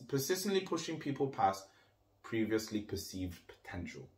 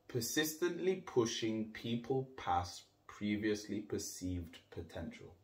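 First: It is said at normal conversational speed. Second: It is said slowly and deliberately.

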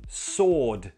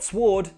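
First: No W sound is pronounced after the S. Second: A W sound is pronounced after the S. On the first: The speaker calls it right. "The W is silent" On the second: The speaker calls it wrong. "Not sword"

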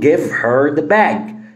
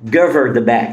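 First: Said slowly with the h in 'her' pronounced. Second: Said quickly with the h in 'her' dropped. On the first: "لو انا هنطق بالراحة هقول" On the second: "طب بسرعة، شيل ال H برضو"

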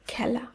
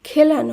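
First: The first vowel is an open ae sound. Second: The first vowel is a closer e sound. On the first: The speaker calls it right. "শব্দটি শুদ্ধ উচ্চারণ" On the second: The speaker calls it wrong. "নয়"

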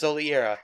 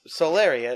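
First: The name is said as Soliera. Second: The name is said as Solaria. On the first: The speaker calls it right. "it's Soliera" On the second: The speaker calls it wrong. "her name is not Solaria"

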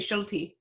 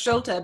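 First: The name is said with a Canadian English pronunciation. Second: The name is said with its original German pronunciation. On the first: This is how the family says it locally. "but here in Canada, we say Schulte" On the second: This is the name's original pronunciation. "I think it is actually pronounced Schulte"

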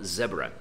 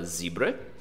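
First: The first syllable has a short 'eh' vowel. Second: The first syllable has a long 'ee' vowel. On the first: "o britânico e o Australian falam iguais, eles falam zebra" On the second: "o American fala zebra"

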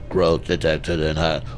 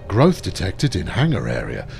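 First: It is said in a robot voice. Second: It is said in a normal voice.

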